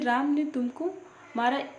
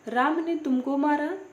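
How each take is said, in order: First: The stress falls on the word तुमको. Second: The stress falls on the word राम. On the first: It is surprising that this person got hit. "तुमको पर बल देने पर" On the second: The one who hit is to blame. "राम पर बल देने पर"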